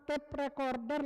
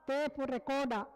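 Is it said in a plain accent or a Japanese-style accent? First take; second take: plain; Japanese. First: It is said in a plain accent. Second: It is said with added vowels, Japanese-style.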